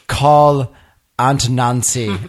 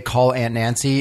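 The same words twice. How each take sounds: First: It is said in a pompous British accent. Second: It is said in a plain American accent. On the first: The car's voice dialing understands it. The speaker calls it right. "I have to say it like this. ... my pompous British accent" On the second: The car's voice dialing fails to understand it. The speaker calls it wrong. "If I say call Aunt Nancy"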